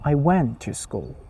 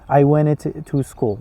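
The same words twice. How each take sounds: First: The consonants in went are said together. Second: An extra vowel splits the consonants in went. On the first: The speaker calls it right. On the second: The speaker calls it wrong. "You cannot say went"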